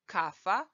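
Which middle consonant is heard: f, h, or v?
f. The word has an f sound in the middle. The speaker is from Serbia. "Serbian, kafa"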